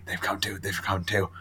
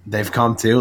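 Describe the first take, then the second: First: Hushed dread. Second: Said in the usual way. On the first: Retold or imitated. Daredevil's despairing quote.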